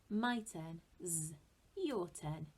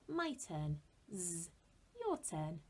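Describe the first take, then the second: The two takes are said the same way.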